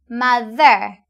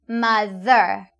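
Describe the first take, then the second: Both takes have the same delivery.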